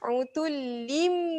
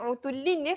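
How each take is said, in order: First: The word ends with an m sound. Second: The word ends with an n sound. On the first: The speaker calls it right. "ada satu mim iklab" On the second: The speaker calls it wrong. "yang ni bunyi dia bukan utullin ya"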